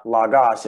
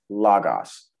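First: Logos with the second syllable, "gos", leaned on; wrong stress on last syllable. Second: Logos with "lo" stressed and "gos" falling away; stress on first syllable. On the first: Teacher showing the wrong stress of logos, last syllable stressed. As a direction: shift the weight of "logos" onto its ending. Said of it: "it's logos". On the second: Teacher correcting the stress of logos, first syllable stressed. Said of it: "It's not logos". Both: Shown as a demonstration.

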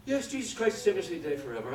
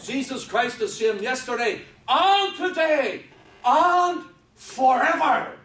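First: Mock quick recital, starting high and tailing down; rattled off glibly. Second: Loud, slow, high, each "and" drawn out before "today" and "forever"; emphasized, enlarged reading. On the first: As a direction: rhyme it off by rote without thinking. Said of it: "rhyme it off the top of their head". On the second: Shown as a demonstration. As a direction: proclaim it hugely, stretching "and" and "forever". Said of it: "That's the way it reads".

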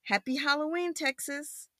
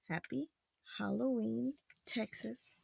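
First: High, soft, flowing read; storybook farewell. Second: Very quiet, separated words; feed each word gently, pausing between; soft word-by-word prompt. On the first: A narrator's reading. Spaceship's farewell to Texas, softly sung-out greeting. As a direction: say it as one gentle phrase. Reads the line, then prompts child. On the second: Shown as a demonstration. Parent prompting child to read, hushed word by word.

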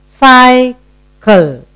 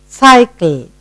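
First: "Cycle" broken in two, first syllable held; split into syllables. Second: Said in the usual way. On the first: Shown as a demonstration. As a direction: pause between the two halves of "Cycle". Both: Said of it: "Two syllable word".

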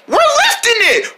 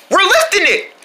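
First: Very high squeaky echo; excited little friend. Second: High, strained cheer; excited triumph. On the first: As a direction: echo the cheer in a tiny voice. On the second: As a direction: call it out mid-lift. Group succeeds in lifting. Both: Pretend.

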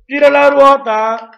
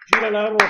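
First: Game show host. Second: Said in the usual way. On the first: Pretend. Spinning the quiz wheel.

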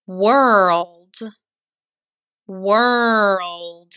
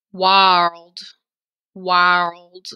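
First: "World" with only an er sound; correct world. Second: "World" said as wald, then wile-d; funny wrong world. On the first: Teacher to third grade, modelling the right er in world. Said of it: "we're not making the O sound". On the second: Teacher to third grade, joking about how world would sound wrong. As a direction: say "world" wrongly with an O vowel, for fun. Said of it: "it would sound funny like this". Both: Shown as a demonstration.

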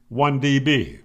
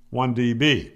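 The two takes are said the same way.

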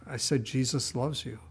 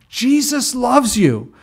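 First: Soft, timid admission; sheepish reply. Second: Slow, loud, high holler; acted yell. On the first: Acted. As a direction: repeat it meekly, hoping not to be heard. Sheepish answer to the shouting man. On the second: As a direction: yell each word out slowly for the whole street. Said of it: "yells at the top of his lungs".

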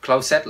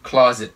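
First: "Closet" said as "clow-set"; wrong closet. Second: "closet" as "CLAW-zit", loud first syllable; correct closet. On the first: Teacher tells learners it is wrong, "Closet" as clow-set. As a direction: mispronounce "Closet" with long o and s sound. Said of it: "là sai". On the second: Teacher gives learners the correct reading, "closet" as CLAW-zit. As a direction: punch the start of "closet", then a z. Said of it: "Phải đọc là". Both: Shown as a demonstration.

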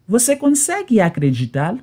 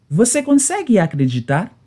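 The two takes are said the same way.

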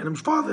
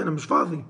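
First: Pitched way up, rising at the end on فاضي; whiny high rise. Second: Said in the usual way. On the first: Acted. Husband brushing off his wife on the phone, high whiny rise. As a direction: whine فاضي up high like a sulky complaint.

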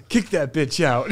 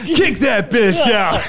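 First: Put-on slow American accent, laughing through it; a laughing mock-American order to throw her out; fake American. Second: Put-on a higher, louder, slow American accent, cracking up; louder fake American. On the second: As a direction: bellow it in a laughing mock-American voice. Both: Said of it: "Why did you turn American?".

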